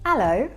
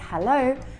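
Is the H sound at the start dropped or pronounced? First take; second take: dropped; pronounced. First: The H at the start is dropped. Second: The H at the start is pronounced. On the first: "people in East London might say" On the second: "Instead of saying"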